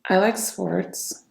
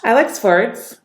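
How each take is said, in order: First: The voice sounds sad and low. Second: The voice sounds happy and uplifted. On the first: "Sadness. Low vibrational tonality" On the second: "Happy. Uplifting tonality"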